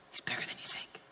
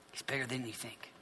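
First: Very soft, voiceless whisper; awed whisper. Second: Very soft but voiced; hushed awe. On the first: Preacher tells listeners of God's size, whispering. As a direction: whisper it as a marvel. Preacher hushed, first of two takes. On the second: Preacher repeats God's greatness to listeners, hushed. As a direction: say it low in volume, just above a whisper. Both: Real, not acted.

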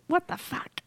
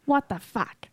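First: Higher, softer mock Jersey swear; a light Jersey driver impression; Jersey what the fuck impression. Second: Imitating her Jersey swear; mock her East Coast what the fuck; a hint of angry Jersey driver; Jersey what the fuck impression. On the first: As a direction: imitate her road-rage Jersey curse. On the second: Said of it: "the way you say it".

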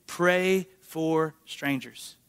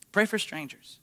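First: Slow, deliberate, each word weighted; preacher's slow emphatic line; slow emphasis. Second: Said in the usual way. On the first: Shown as a demonstration. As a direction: lay it down slowly.

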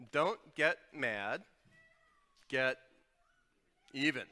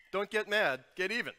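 First: Slow, loud, each word set apart; the idiom Don't get mad, get even, dragged out slow and loud; slow deliberate idiom. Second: Don't get mad, get even, snapped out higher and louder; the idiom Don't get mad, get even, punched high and loud; punchy idiom. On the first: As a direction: spell the idiom out slowly for the room. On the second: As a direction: hit it hard like a slogan. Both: Shown as a demonstration. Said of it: "Kinda like this".

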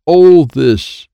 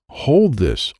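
First: Very loud, high shout; shouted order. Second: Higher, not yet shouted; insistent order. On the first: Child insisting Wyatt take a card, shouted order. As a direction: shout it out, higher and full force. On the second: Child repeating the order to Wyatt, insistent. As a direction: repeat it firmly at raised pitch. Repeat before louder take. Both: A narrator's reading.

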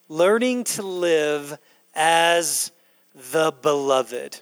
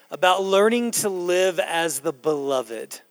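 First: Slowly, each word weighed; slow emphatic repeat. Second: Said in the usual way. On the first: Shown as a demonstration. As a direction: let the phrase sink in slowly. Pastor repeats key phrase for emphasis.

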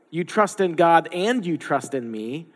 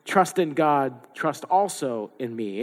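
First: Statement reading with a lift on "and"; "You trust in God and you trust in me" as a plain fact, rising on "and". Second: "Trust in God, trust also in me" as an instruction, slower on the end; read as a command. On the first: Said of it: "it could be either". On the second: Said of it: "Or it could be". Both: Shown as a demonstration.

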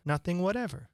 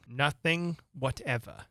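First: Higher, simple reply, falling at the end; lightly voiced Alice, settling the question; Alice answering. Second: Slow, measured question from a king; lightly voiced king, drawing out the words; king pressing. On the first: Alice answers the questioning king, lightly firm. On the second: King presses Alice on what she knows, slowly questioning. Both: A narrator's reading.

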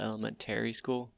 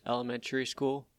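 First: "elementary" with a full "TARE-ee" ending; full -tary elementary. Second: "elementary" with a reduced ending, "elemen-tree". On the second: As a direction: say "elementary" as "elemen-tury", the -ary weakened. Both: Shown as a demonstration. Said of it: "I call it elementary school".

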